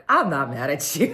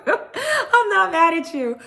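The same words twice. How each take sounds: First: Said in the usual way. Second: Much higher, slow laughing repeat. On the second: Retold or imitated. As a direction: cackle it through a grin.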